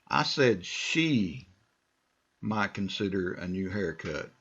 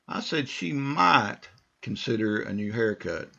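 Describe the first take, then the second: First: The stress is on "she". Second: The stress is on "might".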